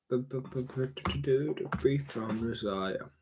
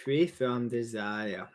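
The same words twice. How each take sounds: First: Very slow, stretched out, softer; drawn-out free from desire. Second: Said in the usual way. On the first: Shown as a demonstration. Streamer repeating the motto, dragging it out slowly. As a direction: stretch every word of "Free from desire" out long. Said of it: "repeated phrase, drawn out". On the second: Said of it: "repeated phrase, second stretched".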